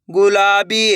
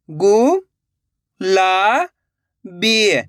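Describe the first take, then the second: First: Said in the usual way. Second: गु, ला, बी split by pauses; syllable by syllable. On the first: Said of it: "direct मात्रा का उच्चारण करके पढ़ेंगे". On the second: Shown as a demonstration. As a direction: sound out गु, ला, बी separately. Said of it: "एक एक अक्षर का उच्चारण करके". (गु, ला, बी एक-एक अक्षर रुक-रुक कर)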